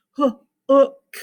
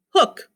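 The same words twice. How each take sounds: First: "hook" broken into "huh", "oo", "k"; every sound separately. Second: Said in the usual way. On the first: Shown as a demonstration. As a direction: sound out "hook" in detached pieces. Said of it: "Not all the sounds". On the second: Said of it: "how many vowel sounds do I hear".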